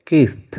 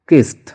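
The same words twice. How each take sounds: Both takes have the same delivery.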